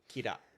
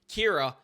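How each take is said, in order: First: The name is said with a Japanese pronunciation. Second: The name is said with an American pronunciation. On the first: The speaker calls it right. "actually pronounce it Japanese" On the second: The speaker calls it wrong. "instead of American"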